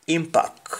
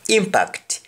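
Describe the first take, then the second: First: "impact" said "impak", T dropped; "impact" without the T; Jamaican pronunciation. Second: "Impact" high with final T; "Impact" with crisp T; English pronunciation. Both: Shown as a demonstration. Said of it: "We don't pronounce the T when spoken in Jamaican".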